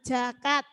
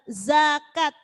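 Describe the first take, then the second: First: The word begins with a j sound. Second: The word begins with a clear z sound. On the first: The speaker calls it wrong. "jangan jakat" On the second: The speaker calls it right. "za harus jelas, zakat"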